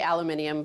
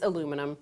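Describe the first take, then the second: First: It has five syllables, ending in -nium. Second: It has four syllables, ending in -num. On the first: "the British say aluminium" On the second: "but it's aluminum"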